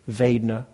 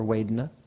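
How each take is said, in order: First: The word begins with a V sound. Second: The word begins with a W sound. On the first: This is the standardized international pronunciation. "in standardized international, it's a V, so V" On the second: This is how it is said with a Burmese accent. "with a Burmese accent, the V's are pronounced with W's"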